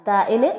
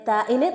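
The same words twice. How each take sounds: No difference in how they are said.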